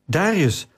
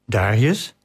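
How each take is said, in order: First: Searching call of the name, high and falling. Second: "Darius" with a rising question at the end; questioning call. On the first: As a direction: call "Darius" into the dark, higher then falling. Searching in the dark, calling out. (zoekend roepen, hoog en dalend) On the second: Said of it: "riep ze". (vragend roepen, met stijgende toon) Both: A narrator's reading.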